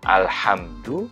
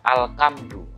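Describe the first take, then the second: First: The consonant after 'al' is a breathy h sound. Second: The consonant after 'al' is a hard k sound. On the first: The speaker calls it right. "Baru alhamdu" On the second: The speaker calls it wrong. "dibaca alkamdu. Nah, ini lidah Jawa ini"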